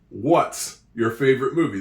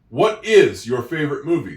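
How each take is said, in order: First: What and is are merged into one syllable. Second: Both words what and is are said separately. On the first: The speaker calls it wrong. "They shorten it up" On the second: The speaker calls it right. "That would be proper English"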